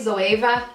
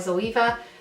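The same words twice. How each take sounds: First: The name ends without an 'Eva' sound. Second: The name ends with an 'Eva' sound. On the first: This is how others say it. "some people say Zoeva" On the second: This is the local pronunciation. "I think it's just in Ireland we pronounce it Eva"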